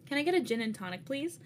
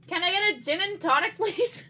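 First: It is said at normal volume. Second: It is said louder, with raised voice.

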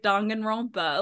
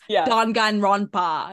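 First: The syllables are said quickly and run together. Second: Each syllable is said slowly and clearly. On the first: This is how fans say it after saying it many times. "we say it so often that it's just become comfortable in our like and our pronunciation" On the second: This is how the voice actors were told to say it. "you need to like say it like this"

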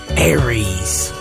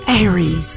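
First: The word is said in a deep, low voice. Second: The word is said in a high, raised voice. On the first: "It sounded kind of like your husband" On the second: "Just up at an octave"

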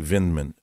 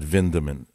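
First: The name is said without an extra e sound. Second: The name is said with an extra e sound. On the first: This is the Americanized form of the name. "I think they left the E out when they came to America. It became only Vindman" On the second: This is the original form of the name. "and not Vindman"

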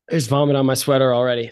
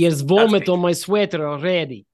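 First: It is said without a Russian accent. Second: It is said in a Russian accent.

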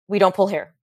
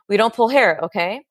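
First: It sounds firm and matter-of-fact. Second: It sounds unsure, like asking a question.

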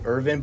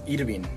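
First: The name is said with an English pronunciation. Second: The name is said with a Spanish pronunciation. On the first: This is how others usually say the name. The speaker calls it wrong. "people call me Irvin" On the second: This is how the name was meant to be said. The speaker calls it right. "but it's Irvin"

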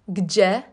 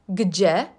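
Both takes have the same delivery.

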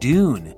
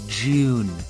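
First: It is said in a plain American accent. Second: It is said in a British accent.

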